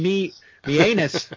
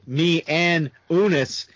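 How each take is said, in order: First: It is read fast, with the words run together. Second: It is read carefully, with each word separate. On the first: The speaker calls it wrong. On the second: The speaker calls it right.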